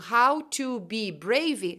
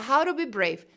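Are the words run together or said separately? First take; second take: separately; run together. First: Each word is said slowly and separately. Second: The words run together quickly in one stream. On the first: This is what a learner expects to hear. "Se você tá esperando how to be brave" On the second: This is how a native speaker says it. "o cara fala how to be brave"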